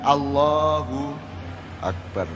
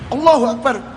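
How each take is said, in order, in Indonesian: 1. Diucapkan dengan tenang dan dari dalam diri. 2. Diucapkan dengan tegas, seperti sebuah tantangan. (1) "Jadi Allahu akbar itu adalah kesadaran ke dalam dirimu" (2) "cocok enggak? Ini nantang gelut aja apa ini?"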